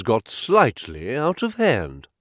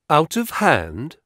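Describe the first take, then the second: First: Said in the usual way. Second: Scornful questioning echo; disparaging. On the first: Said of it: "Out of hand? ... I repeated". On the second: Acted. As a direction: throw the phrase back with disdain. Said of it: "I repeated disparagingly".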